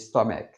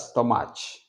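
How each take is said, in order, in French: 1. Le mot se termine par un son k dur. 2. La fin se prononce avec un son doux, proche de « ch ». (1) "On dit stomach" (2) "C'est terminé par un C H, mais on ne dit pas stomach"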